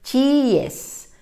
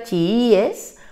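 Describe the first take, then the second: First: Chiíes said high, the i and e run together as a diphthong; chiíes, high, wrongly as a diphthong; wrong stress. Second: Chiíes slow, stress on the accented i, three syllables; correct stress. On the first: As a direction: say chiíes the wrong way, as two syllables. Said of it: "diría". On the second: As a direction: say chiíes slowly, leaning on the accented i. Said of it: "Para que diga". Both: Shown as a demonstration.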